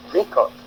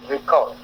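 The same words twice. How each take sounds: First: Record as a noun, "RE" pitched high; record, high first syllable and falling end; stress on RE. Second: Record as a verb, weight on "cord"; record, light start and stressed ending. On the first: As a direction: say RE-cord, dropping off on "cord". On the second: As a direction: say re-CORD with the second syllable held. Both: Shown as a demonstration. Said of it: "en fonction de la position du trait".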